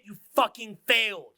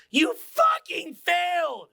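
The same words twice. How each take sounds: First: Said in the usual way. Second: High, drawn-out shout; emphatic shouted verdict. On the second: Real, not acted. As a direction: bellow it slowly, stretching every word.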